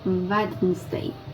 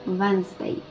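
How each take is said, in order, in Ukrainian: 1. Кожна літера вимовляється, включно з першою d. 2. Першу d і середню голосну пропускають. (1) "Пишеться він як Wednesday" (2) "ми пропускаємо літеру першу D та другу літеру І. І вимовляємо Wednesday"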